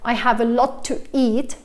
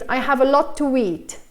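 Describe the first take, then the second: First: A glottal stop separates 'to' and 'eat'. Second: A W sound links 'to' and 'eat'. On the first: "because then I have to do this glottal stop" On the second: "I insert the W sound, even though there's no W"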